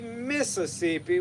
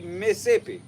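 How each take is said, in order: First: It is said in a general, non-local accent. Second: It is said in a local Mississippi accent. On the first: This is how outsiders say it. The speaker calls it wrong. "We don't say Mississippi" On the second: This is how locals say it. The speaker calls it right. "we say Mississippi"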